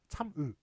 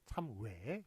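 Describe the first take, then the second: First: The final vowel is a single pure vowel. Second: The final vowel glides like 'we'. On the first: "단모음은 으. 그래서 참으, 참으 ... 이런 식으로 발음을 해야 원래 맞다는 거예요" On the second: "다 어떻게 발음해요? ... 참외 이런 식으로 이렇게 발음을 하고 있죠"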